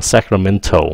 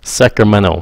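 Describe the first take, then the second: First: "Sacramento" with a clear t before the final o. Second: "Sacramento" as sek-ruh-men-oh with no t; T dropped. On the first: Teacher showing the spelled-out version students would say. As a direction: say "Sacramento" with the t fully sounded. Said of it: "Họ đọc là Sacramento. Họ bỏ cái âm T". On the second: Teacher showing the local pronunciation to students. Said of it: "Họ bỏ cái âm T ra luôn". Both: Shown as a demonstration.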